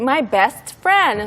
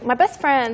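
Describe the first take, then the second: First: The t in best is clearly pronounced. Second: The t in best is dropped. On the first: The speaker calls it wrong. "I wouldn't say" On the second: The speaker calls it right. "It's like my best friend. And usually we like take out the T"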